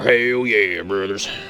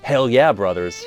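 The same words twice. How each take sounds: First: It is said in a Southern American accent. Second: It is said in a standard American accent. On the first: The speaker calls it right. "said in a Southern accent are cool" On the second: The speaker calls it wrong. "If you just do it normal"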